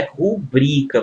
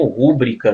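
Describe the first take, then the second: First: Rubrica slow, stressed on the middle syllable BRI, as a paroxytone; correct stress rubrica. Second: Rúbrica stressed on the first syllable RÚ, as a proparoxytone; wrong stress rúbrica. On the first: Teacher showing students the correct rubrica, slow, stressed ru-BRI-ca. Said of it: "o certo é rubrica". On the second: Teacher showing students the wrong rúbrica, stressed RÚ-brica. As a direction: say rúbrica with the accent on RÚ, the common mistake. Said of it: "Muitos pronunciam rúbrica". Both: Shown as a demonstration.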